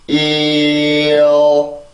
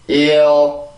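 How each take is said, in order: First: It is said slowly. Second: It is said faster.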